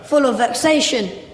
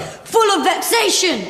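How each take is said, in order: First: It is said with mild energy. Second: It is said with strong, forceful energy.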